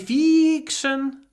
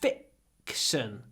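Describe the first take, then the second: First: The first vowel is drawn out long. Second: The first vowel is clipped very short. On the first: The speaker calls it wrong. "don't say fiction" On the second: The speaker calls it right. "Really short I before the k"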